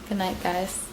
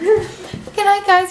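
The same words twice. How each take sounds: First: It is said in a normal voice. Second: It is said in a put-on camera voice.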